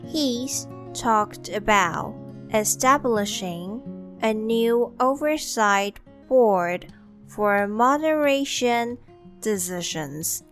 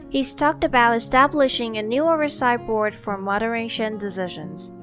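First: It is said slowly. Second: It is said at normal speed.

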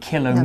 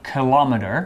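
First: It is said the British English way. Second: It is said the American English way.

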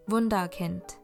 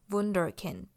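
First: The word is pronounced with German sounds. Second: The word is pronounced with English sounds. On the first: "这个是德文的念法" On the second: "你有可能也会听到有人念Wunderkind"

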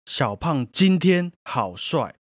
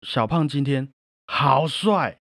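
First: The stress is on 今天. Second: The stress is on 好帅.

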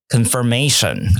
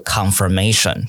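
First: The first vowel is light and reduced. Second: The first vowel is a full, heavy sound. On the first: The speaker calls it right. "它不会有康那么重的声音" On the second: The speaker calls it wrong. "而不是confirmation"

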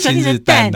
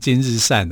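First: The last syllable sounds like dan. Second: The last syllable sounds like shan. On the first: "或者今日单啊" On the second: "很多人把它读成今日善啊"

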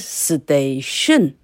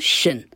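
First: The stress is on the second syllable. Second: The stress is on the first syllable. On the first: The speaker calls it wrong. "而不会是station" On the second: The speaker calls it right. "一定是什么station"

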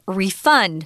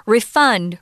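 First: The stress is on the second syllable. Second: The same.

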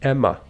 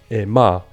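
First: The stress is on the first syllable. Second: The stress is on the second syllable.

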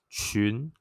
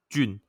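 First: The pitch rises from low to high. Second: The pitch stays in the middle and level.

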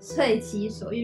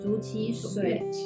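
First: The first syllable is pronounced sui. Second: The first syllable is pronounced zhu. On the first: The speaker calls it right. "是遂" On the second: The speaker calls it wrong. "原来我一直念错"

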